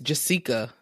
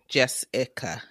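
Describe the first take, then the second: First: The middle syllable sounds like 'see', as in Jesse. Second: The middle syllable sounds like 'ick'. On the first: "it's almost like it's Jessica. But I don't know if I've ever heard anyone pronounce it that way" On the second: "the I gives ick"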